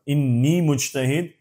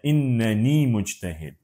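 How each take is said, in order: First: The first word is said with one n syllable. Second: The first word has an extra n syllable. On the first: "इसको इन्नी भी पढ़ सकते हैं" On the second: "एक एक्स्ट्रा नून ऐड करके इन्ननी भी पढ़ सकते हैं"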